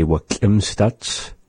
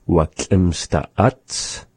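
First: Slow demo of "Wa schlimmstats"; language example. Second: Very slow demo of "Wa schlimmste Ats" split in parts; language example. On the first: Teacher modelling the plural "Wa schlimmstats" slowly. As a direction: draw out "Wa schlimmstats" for learners. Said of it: "we would say". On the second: Teacher giving the split plural "Wa schlimmste Ats". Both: Shown as a demonstration.

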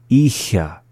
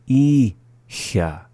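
First: Said in the usual way. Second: "Icha" split, long "I", pause, then "cha"; slowly. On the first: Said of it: "up to speed". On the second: Shown as a demonstration. Teacher repeating after the English, "Icha" said slowly in syllables. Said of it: "the second time slowly".

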